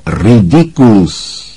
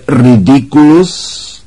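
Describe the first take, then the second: First: Slow, falling, unhurried spell; Lupín, almost lazy. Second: Drawn-out spell cry, higher and rising; Ron roaring. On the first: Lupín dismissing the silvery orb, almost lazily. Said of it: "zaznělo téměř lenivě". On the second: Ron casting at the giant spider, roaring. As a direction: roar the spell slowly, voice climbing. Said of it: "zařval Ron". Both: A narrator's reading.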